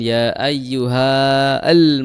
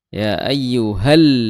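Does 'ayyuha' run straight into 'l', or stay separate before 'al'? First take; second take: separate; straight in. First: The final vowel is kept apart before al. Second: The final vowel runs straight into the l. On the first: The speaker calls it wrong. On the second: The speaker calls it right. "langsung masuk ke lam"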